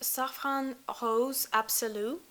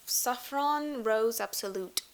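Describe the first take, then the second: First: The name is said with a French accent. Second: The name is said with an English accent.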